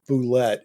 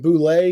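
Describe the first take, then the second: First: The word ends with a clear 't' sound. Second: The word ends in an open 'ay' vowel. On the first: The speaker calls it wrong. "I always thought it was Boulette" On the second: The speaker calls it right. "Is it Boulay?"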